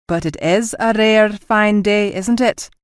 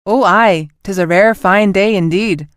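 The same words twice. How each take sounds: First: Slow, dead-serious deadpan; mock solemn. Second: Hammed-up bad Scottish accent, louder; a clumsy fake Scottish accent for a joke; dreadful Scottish accent. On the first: Officer whispering a joke to the captain, mock solemn. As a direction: ask it with a straight face. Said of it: "he asked solemnly". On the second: Captain teasing her crew in a terrible Scottish accent. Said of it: "in a dreadful attempt at a Scottish accent".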